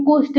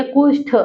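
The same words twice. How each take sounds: First: कुष्ठ ending in plain ट, as kushṭ; कुष्ठ with unaspirated ट; common wrong form. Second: कुष्ठ ending in aspirated ठ, as kushṭh; कुष्ठ closed on ठ; corrected form. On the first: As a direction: say कुष्ठ without the final puff. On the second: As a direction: puff the end of कुष्ठ. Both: Shown as a demonstration. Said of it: "लेकिन वो कुष्ठ नहीं है".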